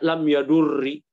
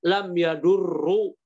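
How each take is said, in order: First: The verb ends with a short i vowel. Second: The verb ends with a short u vowel. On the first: "Kalau dibaca kasroh lebih nggak mungkin lagi" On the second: "kalau dibaca dhammah"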